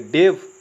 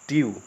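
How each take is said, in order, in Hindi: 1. शब्द 'v' ध्वनि पर खत्म होता है। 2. शब्द 'yoo' ध्वनि पर खत्म होता है। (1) "ये गलत प्रोनाउंसिएशन होगा" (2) "सही प्रोनाउंसिएशन होगा इस तरीके से"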